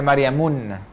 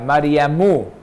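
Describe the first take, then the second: First: The name ends in 'mun' with an n. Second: The name ends in 'mu' without an n. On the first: The speaker calls it wrong. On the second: The speaker calls it right.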